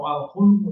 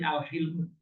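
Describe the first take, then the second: First: The vowel after h is u. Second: The vowel after h is i. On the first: The speaker calls it wrong. "atau al-hulmu" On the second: The speaker calls it right. "tapi al-hilmu"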